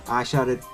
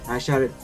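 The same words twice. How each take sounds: The two takes are said the same way.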